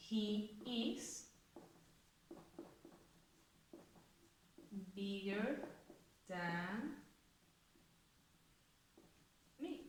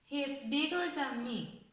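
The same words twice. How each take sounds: First: "He is bigger than me" dicho más suave, palabra a palabra con largas pausas; dictado palabra por palabra. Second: Said in the usual way. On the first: Shown as a demonstration. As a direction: dicta despacio mientras lo escribe en la pizarra. ("He is bigger than me" dictado suave, separando cada palabra) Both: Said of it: "Vamos a ponerla en una frase".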